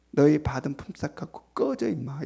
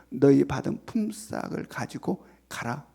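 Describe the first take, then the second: First: Mock rude brush-off, kept low-key; blunt everyday dismissal. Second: Slow, measured master's dismissal, slightly lowered; formal scriptural dismissal. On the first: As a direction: dismiss them curtly in street language, dropping off at the end. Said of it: "실제로 하면 어떻게 되겠어요". (일상 말투로 퉁명스럽게) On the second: Acted. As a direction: send them away in stately, unhurried words. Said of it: "성경이어서 이렇게 표현하고 있지". (성경 말투로 천천히)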